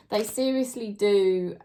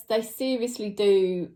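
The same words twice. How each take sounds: The two takes are said the same way.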